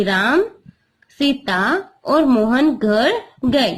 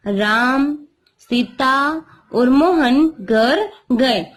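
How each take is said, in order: First: Slow, with a short stop after Ram at the comma; pause at commas. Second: Slow, with a clear pause after Ram and after Sita; pause at commas. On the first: Teacher repeats the comma example for her class, pausing after Ram. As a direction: say Ram, then a pause, then Sita और मोहन घर गए slowly. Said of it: "यहाँ पे मैं थोड़ा रुक गई". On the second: Teacher reads the comma example to her class, pausing at each comma. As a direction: read Ram, Sita और मोहन घर गए slowly, stopping at each comma. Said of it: "तो बाद में यहाँ पे थोड़ा रुकते हैं". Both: Shown as a demonstration.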